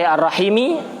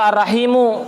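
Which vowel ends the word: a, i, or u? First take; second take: i; u. First: The word ends with an i vowel. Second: The word ends with a u vowel. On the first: It describes the preceding attribute. "ikut dibaca jer" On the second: It is the predicate of an omitted subject. "menjadi khobar dari mubtada yang dibuang"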